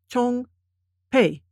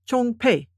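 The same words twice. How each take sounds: First: The syllables are said slowly with gaps between. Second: The syllables are said quickly and run together. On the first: "I will read the characters sort of spaced" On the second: "then I will read them faster, closer together"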